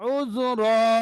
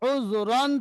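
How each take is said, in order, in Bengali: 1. শব্দটি লম্বা 'aa' ধ্বনি দিয়ে শেষ হয়। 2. শব্দটি 'an' ধ্বনি দিয়ে শেষ হয়। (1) "থামবেন, দুই জাবারকে এক জাবারের সঙ্গে আলিফ মাদ্দা পড়তে হবে" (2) "উপরের লাইনে দুই জাবার আছে"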